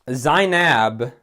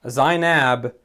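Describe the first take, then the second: The two takes are said the same way.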